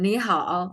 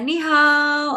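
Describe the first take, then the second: First: It is said with Mandarin tones. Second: It is said with Indonesian intonation. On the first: The speaker calls it right. "nadanya makin bagus" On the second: The speaker calls it wrong. "tidak pakai nada bahasa Indonesia ya ni hao. Ah, itu nggak betul"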